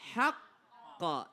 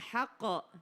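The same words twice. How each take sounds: First: The double consonant is held long before release. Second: The double consonant is said short, not held. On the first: The speaker calls it right. "Haqqo ditahan dulu" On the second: The speaker calls it wrong. "bukan haqqo"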